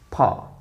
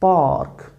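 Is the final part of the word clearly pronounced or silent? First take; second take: silent; pronounced. First: The word ends with nearly silent consonants. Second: The word ends with clearly pronounced consonants. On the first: The speaker calls it right. "they pronounce it only pa, and they make it this thing purely silent" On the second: The speaker calls it wrong. "Now Pakistani speakers pronounce it park"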